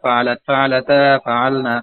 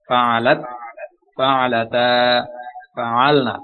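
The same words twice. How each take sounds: First: The forms are recited quickly in one run. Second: The forms are recited slowly, one by one. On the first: This is the way to recite once the forms are practised. "এখন আমি জোরে বলবো" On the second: This is the way to learn the forms at first. "আমি আস্তে আস্তে আপনাদেরকে বললাম"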